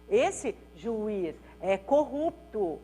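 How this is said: Short pauses come before and after 'juiz'.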